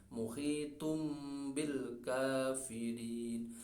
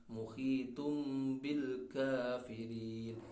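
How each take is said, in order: No difference in how they are said.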